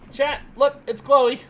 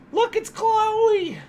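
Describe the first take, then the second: First: Bright-eyed, higher announcement to viewers; raised, eager pet-owner voice; excited showing-off. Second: Very high, stretched-out singsong; exaggerated high coo showing off a pet; gushing pet squeal. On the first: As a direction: proudly show off the dog, pitched up. Shows dog to stream viewers. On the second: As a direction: squeal it slowly, drawing out the name. Shows dog again, more gushing. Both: Real, not acted.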